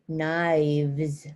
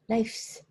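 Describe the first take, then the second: First: The ending uses a V sound before S. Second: The ending uses an F sound before S. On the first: The speaker calls it right. "got to change the F to V" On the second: The speaker calls it wrong. "don't say it knifes. Knifes, like with an F"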